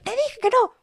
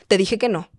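First: High-pitched mock shout at normal volume; mock yell. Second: Firme, sin gritar. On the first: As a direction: imitate a mother losing it, very high. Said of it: "tal vez llego a gritar". (grito fingido, muy agudo) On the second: Shown as a demonstration. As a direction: set a firm limit at normal volume. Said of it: "pero hablamos firme". (voz firme, sin gritar)

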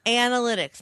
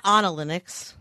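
First: ANALYTICS with a short-A AN at the start; correct pronunciation. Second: ANALYTICS with an AH at the start, tune rising; mispronunciation demo. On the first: Co-host correcting her, demonstrating AN-alytics. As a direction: say "AN-alytics", first vowel as in cat. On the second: Co-host showing the wrong way, AH-nalytics. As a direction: say "AHN-alytics", first vowel as in father. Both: Shown as a demonstration. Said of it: "not Analytics".

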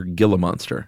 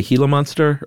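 First: Gila said with a hard G, as in "give"; hard-G pronunciation. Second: Gila said HEE-la, with a breathy H for the G; Spanish-style pronunciation. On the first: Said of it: "or Gila monster?". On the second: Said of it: "do you say Gila monster or". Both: Shown as a demonstration.

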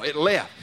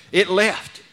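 First: Said in the usual way. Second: A louder, ringing cry; loud triumphant shout. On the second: Acted. Preacher proclaiming the spirit gone, loud shout.

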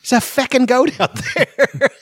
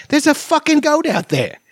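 First: "feckin'" said Scottish with a short e as fecking, much higher and slow; high Scottish child voice saying "feckin'" instead of fucking; "feckin'" in a Scottish accent, slow and childlike. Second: Put-on much higher Scottish kid voice, hamming it up; Scottish accent, high child's voice, "fucking" said in full. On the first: Retold or imitated. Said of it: "'Cause they say feck". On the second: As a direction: play a cheeky little Scottish child saying "fucking" plainly as an English swear. Quoting Scottish kids cussing.

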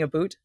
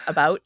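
First: "a boot" with a long oo vowel; exaggerated Canadian "aboot". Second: "about" with an open ow, rhyming with out; normal "about". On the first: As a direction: say "a boot" for about, rhyming with suit. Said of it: "I don't say a boot". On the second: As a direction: say "about" with a clear ow diphthong. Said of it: "Am I saying a boot". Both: Shown as a demonstration.

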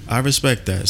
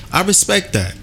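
First: Said in the usual way. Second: Respect said high and punched; emphatic high respect. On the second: Real, not acted.

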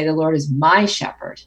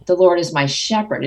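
First: "my" pushed up and held, the rest light; stress on my. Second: "Lord" punched, then falling away; stress on Lord. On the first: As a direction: hit "my" as if claiming him. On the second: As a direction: land hard on "Lord". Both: Shown as a demonstration. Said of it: "each time emphasize a different word".

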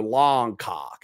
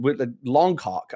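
First: Longcock with an open AH, lɑŋkɑk; Longcock, flat ah vowel; American Longcock. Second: Longcock with a rounded O, lɔŋkɑk; Longcock, long O rounded; British Longcock. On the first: Showing the American way to say Longcock. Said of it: "It's more like A, A H N". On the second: A Brit showing his own Longcock. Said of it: "pronounce the O like a hard O". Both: Shown as a demonstration.

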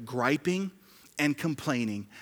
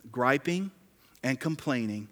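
Both takes have the same delivery.

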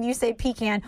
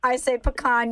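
First: Pecan said as PEE-can, flat a; "pecan" as pee-KAN with a short flat a; his pecan. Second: Pecan said as peh-KAHN, stress on the second syllable, broad ah; "pecan" as puh-KAHN, long ah at the end; own pecan. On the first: To her friend, mimicking how he says it: pecan as pee-KAN. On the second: To her friend, showing how she says it: pecan as puh-KAHN. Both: Shown as a demonstration.

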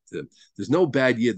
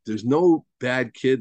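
First: "no" slowed, words spaced out; slow emphatic "no" in "There's no bad Yid"; stress on no. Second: "no" drawn out and slowed; slow emphatic "no" in "There's no bad kid"; stress on no. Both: Shown as a demonstration. Teacher driving home key point.

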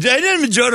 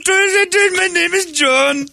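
First: Put-on high Indian accent, quicker "My name is John"; snappy Indian accent. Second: Put-on high, slow Indian accent on "My name is John"; drawn-out Indian accent, mocking the new name. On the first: Guy with Indian accent repeats his new name, high. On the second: Guy with Indian accent claims the name John, slow and high. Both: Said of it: "With the accent".

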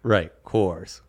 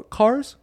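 First: "Coors" now said with the or of doors; "Coors" rhyming with doors, low and quiet; corrected pronunciation. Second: "Cars" said with an open ah vowel, like cars; "Cars" instead of Coors, vowel as in car; mispronounced Coors. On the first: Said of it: "Rhymes with doors". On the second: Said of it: "How do you pronounce it again?". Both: Real, not acted.

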